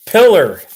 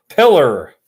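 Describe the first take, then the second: First: Loud, higher Arkansas drawl on Pillar, said like pillow; mock Arkansas pronunciation of Pillar; Arkansas accent. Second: Pillar said through a chuckle; can't keep a straight face on Pillar; laughing. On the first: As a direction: read Pillar as a proud Arkansas local would. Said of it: "That's how they talk in Arkansas". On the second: Real, not acted. Laughs at own joke.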